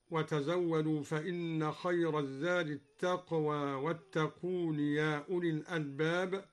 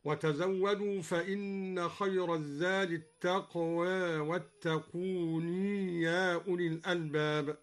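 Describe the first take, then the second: First: Said in the usual way. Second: التقوى ending half toward e, and واتقون said wattaquuni with a ya; التقوى slightly leaned, واتقون with a final ii; light imala and kept ya. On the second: Shown as a demonstration. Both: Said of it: "قلل الدوري التقوى وأثبت الياء".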